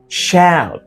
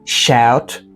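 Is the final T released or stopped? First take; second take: stopped; released. First: The final T is stopped, not released. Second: The final T is fully released. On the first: "Stop T" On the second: "you can say"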